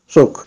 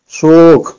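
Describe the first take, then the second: First: The vowel is said short. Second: The vowel is drawn out long. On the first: "Si on n'aurait pas eu le waw" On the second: "je tire un peu plus que normal"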